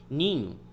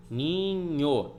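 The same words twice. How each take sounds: First: Said in the usual way. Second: "Ninho" stretched into two syllables, ni-nho; drawn-out "Ninho" as ni... nho; syllable division. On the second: Shown as a demonstration. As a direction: say "Ninho" syllable by syllable, keeping nh together. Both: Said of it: "Vai ficar na mesma sílaba".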